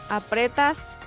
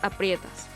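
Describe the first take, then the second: First: The stressed vowel is a plain 'e'. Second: The stressed vowel is the diphthong 'ie'. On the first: "las formas verbales" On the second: "vendría a ser aprietas"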